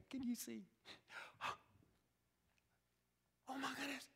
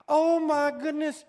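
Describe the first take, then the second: First: Soft, breathless gasp of joy; hushed joyful disbelief; amazed father. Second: Loud, stern exclamation; loud scolding sigh of disbelief; exasperated father. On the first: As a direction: let it out in quiet wonder. Father recognises his son, amazed. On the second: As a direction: bark it like an angry dad. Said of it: "We see God as this angry father". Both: Acted.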